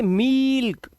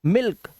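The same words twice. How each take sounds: First: मील्क with a long, high held ee; wrong long vowel. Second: मिल्क with a brief ee; short vowel. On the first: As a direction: stretch the ee in मील्क on a raised pitch. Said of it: "ये गलत हो जाएगा". (मील्क में ई को ऊँचा खींचकर) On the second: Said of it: "इसको जल्दी बोलना है". (मिल्क में छोटी इ) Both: Shown as a demonstration.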